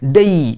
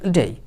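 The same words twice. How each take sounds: First: It is pressed out with heavy force. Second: It is said plainly without extra force. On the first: The speaker calls it wrong. "খুব চেপে চুপে pressure দিয়ে" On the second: The speaker calls it right. "Simply বলবেন"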